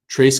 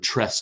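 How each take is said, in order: First: The vowel sounds like the one in 'trace'. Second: The vowel sounds like the one in 'tress'. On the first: The speaker calls it wrong. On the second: The speaker calls it right.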